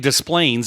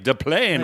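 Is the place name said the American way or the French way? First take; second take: American; French. First: The name is said with an American pronunciation. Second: The name is said with a French pronunciation. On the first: This is how locals commonly say it. "they say Des Plaines" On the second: This is how the original language would have it. "should be like Des Plaines, right? The French pronunciation"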